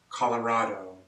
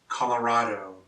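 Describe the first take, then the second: No difference in how they are said.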